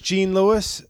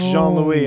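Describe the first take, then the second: First: The name starts with an English 'j' sound. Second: The name starts with a soft 'zh' sound. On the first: The speaker calls it wrong. "The women that mispronounce it the most" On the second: The speaker calls it right. "it's Jean-Louis"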